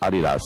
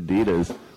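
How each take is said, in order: First: It is said the British way. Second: It is said the American way.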